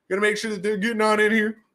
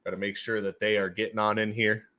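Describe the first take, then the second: First: High-pitched put-on voice; silly high voice. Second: Said in the usual way. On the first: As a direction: repeat it playfully, pitched right up. Repeats line in silly voice.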